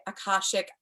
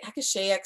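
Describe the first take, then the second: First: "Akashic" said uh-KAH-shik; alternate pronunciation. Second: "Akashaic" said ah-kuh-SHAY-ik; alternate pronunciation. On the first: Trainer showing the other way people say it, "Akashic" as uh-KAH-shik. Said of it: "some people say Akashic". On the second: Trainer showing how some people say it, "Akashaic" as ah-kuh-SHAY-ik. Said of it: "some people say Akashaic". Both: Shown as a demonstration.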